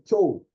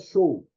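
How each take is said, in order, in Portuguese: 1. Começa com um 'ch' forte. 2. Começa com um 'sh' suave. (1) "o som é de che" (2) "Não é show"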